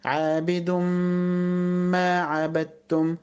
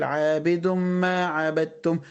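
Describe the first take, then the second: First: Long hummed m joining عابد to ما; full ghunna. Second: عابد ما run on with the m unheld; ghunna left out. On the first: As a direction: slowly hold the merged m in عابد ما. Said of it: "لكن أقول إيه؟". (غنّة كاملة في عابد ما) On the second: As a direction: pass straight from عابد to ما عبدتم. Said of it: "ما ينفعش أقول". (عابد ما من غير غنّة) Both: Shown as a demonstration.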